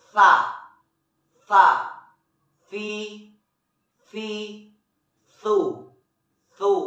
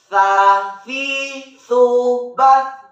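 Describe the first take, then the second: First: THA, FI, THU with tongue tip on upper teeth, breath flowing; soft letter tha. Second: High, swinging syllable chant; sung, swung voice. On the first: Teacher shows learners the letter tha, soft breathy articulation. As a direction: say THA, FI, THU one at a time, air hissing gently through. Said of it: "dan nafas dengan lembut". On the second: Teacher joins the letters for learners, swinging chant. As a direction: chant it with long swung vowels. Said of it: "diayunkan suaranya". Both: Shown as a demonstration.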